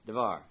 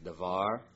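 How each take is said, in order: First: The first vowel is a reduced short sound. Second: The first vowel is a full a sound. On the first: This is the noun bound to a following noun. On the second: This is the noun standing on its own.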